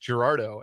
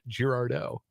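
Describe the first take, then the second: First: The stress is not on the final syllable. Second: The stress is on the final syllable. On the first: The speaker calls it right. "today I learned it's pronounced" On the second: The speaker calls it wrong. "and not ... you emphasize the D then"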